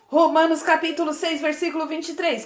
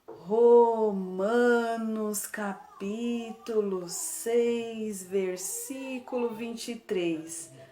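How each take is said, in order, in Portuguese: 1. É falada muito rápido. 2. É falada muito devagar. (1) "a gente vai falar bem rapidinho" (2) "bem devagarinho"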